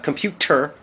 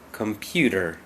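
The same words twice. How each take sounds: First: The middle consonant is a crisp t sound. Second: The middle consonant is a soft d sound. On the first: "not t, not computer. That's not wrong" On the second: "the more common pronunciation for Americans is computer"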